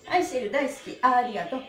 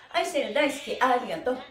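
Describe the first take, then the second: No difference in how they are said.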